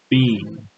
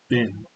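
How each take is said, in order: First: The word rhymes with bean. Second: The word rhymes with Ben. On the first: "the way they'll say it is bean" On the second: "they're going to say it as Ben"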